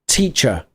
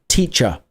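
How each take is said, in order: Both takes have the same delivery.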